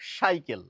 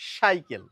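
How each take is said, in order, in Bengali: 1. শব্দটি একটি sh ধ্বনি দিয়ে শুরু হয়। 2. শব্দটি একটি sh ধ্বনি দিয়ে শুরু হয়।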